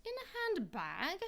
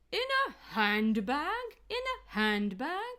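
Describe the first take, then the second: First: "handbag" with the stress wrongly on "bag"; unnatural word stress. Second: Slow, loud "handbag" dipping down on "hand"; pitch drop for stress. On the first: Coach showing what sounds unnatural, "handbag" stressed on "bag". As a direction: push the second syllable of "handbag". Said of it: "That doesn't sound natural either". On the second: Coach showing stress by falling pitch, "handbag" dipping on "hand". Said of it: "the pitch can also go down". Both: Shown as a demonstration.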